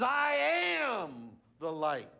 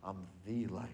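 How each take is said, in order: First: "I am the light" shouted slowly with weight on "am"; emphatic shout. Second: "I'm the light" dropped much lower and softer; quiet restatement. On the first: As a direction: proclaim it slowly at full voice. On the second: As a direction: let it fall to a near hush. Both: Shown as a demonstration. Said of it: "Not a light".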